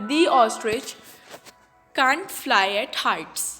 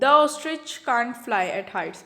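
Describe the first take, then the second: First: The word 'the' is said as 'thee'. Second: The word 'the' is said as 'thuh'. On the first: The speaker calls it right. "because we will use here" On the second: The speaker calls it wrong. "isn't it wrong? ये wrong है"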